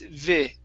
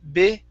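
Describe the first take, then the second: First: The syllable starts with a v sound. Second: The syllable starts with a b sound. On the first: The speaker calls it right. "it's vi" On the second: The speaker calls it wrong. "Instead of saying visit, bi"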